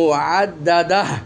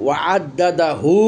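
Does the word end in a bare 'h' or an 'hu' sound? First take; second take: bare h; hu sound. First: The word ends on a bare h, no vowel. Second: The final h is followed by a u vowel. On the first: "অক্ষ করছি সেজন্য এই হাটাকে জজম বা সাকিনের মতো পড়বো" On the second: "হা উল্টা পেশু"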